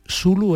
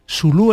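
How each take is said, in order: First: The stress is on the first syllable. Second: The stress is on the last syllable. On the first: It names the man himself. "Zulu es él. Es decir, sin acento" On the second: It names the tribe. "Zulu es la tribu"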